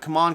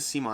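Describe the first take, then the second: First: The name sounds like the words 'come on'. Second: The name sounds like the name 'Simon'. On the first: "I always say Come On" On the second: "I'm trying to say Simon here correctly"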